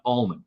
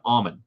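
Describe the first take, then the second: First: The name is said like Allman. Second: The name is said like Ommen. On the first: The speaker calls it wrong. "not Almond" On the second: The speaker calls it right. "it's Almond. O M M E N. Almond"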